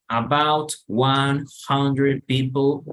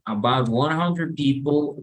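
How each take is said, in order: First: The words are said separately with gaps. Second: The words are linked together without gaps. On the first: The speaker calls it wrong. "en vez de decir about one hundred people" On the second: The speaker calls it right. "sino todo junto"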